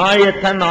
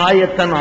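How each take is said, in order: The two takes are said the same way.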